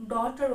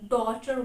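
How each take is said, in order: First: "daughter" with an "ow" vowel, DOW-ter; mispronunciation. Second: "daughter" with a silent GH and an "aw" vowel; standard pronunciation. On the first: Teacher demonstrating a learner's mistake, "daughter" mispronounced as DOW-ter. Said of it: "mispronounce da-, daughter word as". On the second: Teacher showing learners the usual way to pronounce the word, "daughter" said DAW-ter. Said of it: "We always pronounce daughter word as". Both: Shown as a demonstration.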